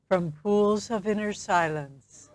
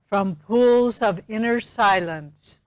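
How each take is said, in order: First: It is said in a normal speaking voice. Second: It is said in a loud voice. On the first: "then again in a normal speaking voice" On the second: "please affirm after me aloud"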